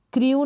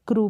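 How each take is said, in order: First: क्रू said as kriu with a glide before the u; wrong reading. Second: क्रू said as a clean long oo, no glide; correct reading. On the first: Teacher showing students the wrong kriu reading. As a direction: read क्रू wrongly as kri-oo. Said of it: "क्रू नहीं पढ़ेंगे". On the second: Teacher giving students the correct kroo reading. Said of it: "क्रू पढ़ेंगे". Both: Shown as a demonstration.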